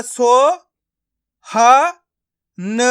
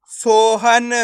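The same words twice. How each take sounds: First: सो, ह, न each sounded alone; long pauses between सो, ह and न; syllable by syllable. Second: सोहन joined as one stretched word; blended word. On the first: Teacher breaking a word up for learners, syllable by syllable. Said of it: "एक एक करके इनका उच्चारण करना है". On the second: Teacher showing learners the joined result, blended word. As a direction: run सो, ह, न together as सोहन. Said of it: "तो मिलके बन जाएगा". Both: Shown as a demonstration.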